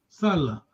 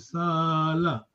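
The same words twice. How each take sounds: First: The vowel is said short. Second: The vowel is said long. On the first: It means to work. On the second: It means to stay.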